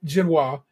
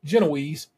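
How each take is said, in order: First: The word ends with a 'wahz' sound. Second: The word ends with an 'eez' sound. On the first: This is how Americans say it. The speaker calls it right. "the Americans pronounce it genoise" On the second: This is how the British say it. The speaker calls it wrong. "the British who call it Genoese"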